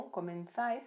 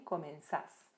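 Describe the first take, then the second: First: "Comenzáis" with a gliding "ais" ending; Spanish vosotros ending. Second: "comenzás" with a pure stressed "ás"; vos ending without I. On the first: Teacher shows the vosotros form before dropping a letter, "Comenzáis" ending in ais. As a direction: say "Comenzáis" keeping the i in the last syllable. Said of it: "a gente elimina a letra I". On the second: Teacher shows the vos form to students, "comenzás" ending in stressed ás. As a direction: say "comenzás" with no i glide at the end. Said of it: "se transforma em". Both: Shown as a demonstration.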